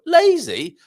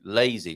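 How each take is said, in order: First: High, loud incredulous "Lazy"; mock indignation. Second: Said in the usual way. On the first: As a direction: throw "Lazy" back as an outraged question. Mock protest at being called lazy.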